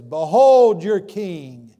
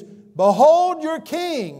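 First: Very loud, slow mocking proclamation. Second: High, loud, very slow proclamation. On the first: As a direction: sneer it out to the crowd. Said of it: "as a mock". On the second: Acted. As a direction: announce him slowly to the whole crowd. Pilate presents Jesus to crowd.

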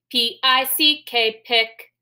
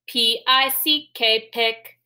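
Both takes have the same delivery.

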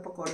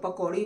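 First: पकौड़े ending in an ay sound; the variant पकौड़े, closing on ay; speaker's own variant. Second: पकौड़ी ending in a long ee; the variant पकौड़ी, closing on ee; others' variant. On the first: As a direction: say पकौड़े with a final -e, not -ee. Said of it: "लेकिन मैं पकौड़े कहती हूँ". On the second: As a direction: say पकौड़ी with a final -ee sound. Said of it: "कुछ लोग पकौड़ी भी कहते हैं". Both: Shown as a demonstration.

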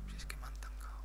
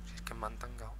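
First: Breathy muttered whisper. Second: Said in the usual way. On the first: Real, not acted. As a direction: whisper it to yourself. Repeats the complaint twice.

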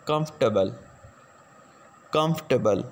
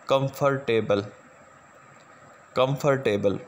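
First: कंफर्टेबल said as KUMF-tuh-bul, three syllables, -or- dropped; correct pronunciation. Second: कंफर्टेबल said as kum-fur-TAY-bul, every syllable spelled out; the common mistaken kum-fur-table reading of कंफर्टेबल; wrong pronunciation. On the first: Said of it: "जो इसकी दुरुस्त pronunciation है". (कंफर्टेबल का सही उच्चारण, कम्फ़-टबल) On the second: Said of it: "हालांकि ये pronunciation गलत है". (कंफर्टेबल गलत उच्चारण में, हर अक्षर अलग बोला हुआ) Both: Shown as a demonstration.

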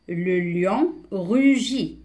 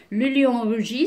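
First: Very slow, drawn-out teacher's reading; deliberate, word-by-word reading; slow model reading. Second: Said in the usual way. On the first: Shown as a demonstration. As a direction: stretch each word for beginning readers. Slow model reading, later explained.

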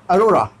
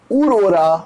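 First: "अरोरा" opening on a short uh; correct aurora. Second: "उरोरा" opening on an oo vowel; misreading of aurora. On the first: Teacher builds the word for pupils, "अरोरा" with opening uh. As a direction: start "अरोरा" with uh, then ro-ra. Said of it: "यू एच इसलिए मैंने कहा अ". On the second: Teacher tests a spelling-based guess, "उरोरा" with opening oo. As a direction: read it as "उरोरा", starting with u. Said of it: "कैसे पढ़ेंगे उरोरा?". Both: Shown as a demonstration.

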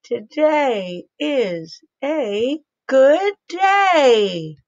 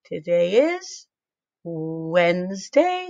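First: Slow, stretched and louder, higher; louder, excited read. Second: Said in the usual way. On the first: Shown as a demonstration. Teacher reading the sentence to kids, louder and slow. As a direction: read it out brightly and loud. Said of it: "Say it a little louder". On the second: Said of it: "plain reading".

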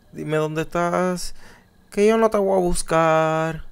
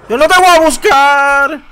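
First: Canturreo bajito y burlón, muy despacio; burla suave y lenta. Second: Desafiante y fuerte; lánzale el reto a gritos al monstruo; burla gritada. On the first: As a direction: provoca al monstruo casi en secreto. Burla susurrada al monstruo del juego. (le canta bajito al monstruo para provocarlo, burlón y lento) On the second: (le grita al monstruo del juego, desafiante) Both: Pretend.

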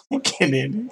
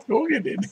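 First: First ask, only a little raised; mild puzzled question; mildly puzzled. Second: Repeated much higher, in disbelief; high incredulous echo. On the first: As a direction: ask it once, just puzzled. First, milder asking. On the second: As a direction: pitch it way up in disbelief. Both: Real, not acted.

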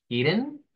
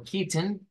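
First: "Kitten" with a tapped R in place of the T; flapped T. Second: "kitten" with a clearly released T; standard T. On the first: Teacher contrasts two pronunciations, flapped T first. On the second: Teacher contrasts two pronunciations, clear T second. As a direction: say "kitten" with a hard T in the middle. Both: Shown as a demonstration. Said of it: "son dos pronunciaciones".

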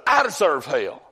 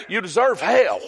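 First: Said in the usual way. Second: Higher, emphatic preacher's rebuke. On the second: Real, not acted. Preacher answers society's claim of deserving, emphatic rebuke. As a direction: drive it home, landing on hell.

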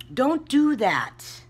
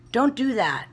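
First: Higher, louder, slow, each word hammered; insistent repeat aimed at the congregation; emphatic slow warning. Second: Raised, firm don't do that; firm caution to fellow YouTubers; stern warning. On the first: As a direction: stretch out Don't do that with heavy stress on do. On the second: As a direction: lean on Don't, higher and louder. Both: Real, not acted.

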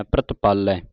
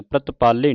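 First: ਪ੍ਰਤਪਾਲੈ ending in open "-ai" as in "cat"; ਪ੍ਰਤਪਾਲੈ with a falling open-vowel ending; open final vowel. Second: ਪ੍ਰਤਪਾਲੇ ending in a close "-ay"; ਪ੍ਰਤਪਾਲੇ with single-stroke "e" ending; wrong final vowel. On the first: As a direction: finish ਪ੍ਰਤਪਾਲੈ on a low, open "ai". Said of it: "ਦਲਾਵਾਂ ਲੱਗੀਆਂ ਤਿਆਰ ਰੱਖਣਾ". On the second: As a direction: end ਪ੍ਰਤਪਾਲੇ on plain "e", as the mistake. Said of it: "ਪ੍ਰਤਪਾਲੇ ਨਹੀਂ ਕਹਿਣਾ". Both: Shown as a demonstration.

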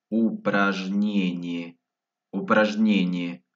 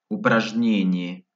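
First: Slowed-down word. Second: Said in the usual way. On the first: Shown as a demonstration. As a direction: stretch each syllable for learners. Word repeated slowly for learners.

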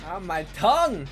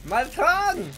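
First: Yelping about an itchy tongue. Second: Higher, louder yelp about tongue; itchy tongue. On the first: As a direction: complain of a tingling tongue. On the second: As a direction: cry out about the tongue again. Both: Real, not acted. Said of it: "Tongue's itchy".

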